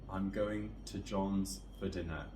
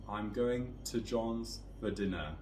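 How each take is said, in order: The two takes are said the same way.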